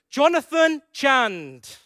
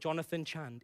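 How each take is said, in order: First: The name is said in a stern, serious tone. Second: The name is said in a casual, relaxed tone.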